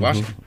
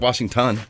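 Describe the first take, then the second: First: It is said in a street-style accent. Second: It is said in a standard accent.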